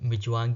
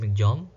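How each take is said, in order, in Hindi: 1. इस नाम को Michaung बोला जाता है। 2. इस नाम को Migjaum बोला जाता है।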